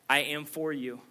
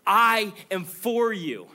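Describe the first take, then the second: First: Gentle promise. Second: High and loud, slow, falling on you; loud proclamation. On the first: Same promise repeated softly. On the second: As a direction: call out the promise with full force. God's promise, first take. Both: Acted.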